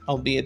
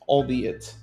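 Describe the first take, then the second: First: It is said in an American accent. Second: It is said in a British accent. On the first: "Let's say the American accent" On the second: "and the British accent"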